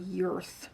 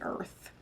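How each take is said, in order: First: It begins with a 'y' sound. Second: It begins directly with a vowel sound. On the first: "Or Yurth" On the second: "I'm going to say Earth"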